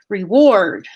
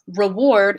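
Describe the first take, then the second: First: The first vowel is a full tense 'ee'. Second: The first vowel is a reduced schwa. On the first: "You could quickly say with a full tense vowel E" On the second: "reward is a little bit less effort"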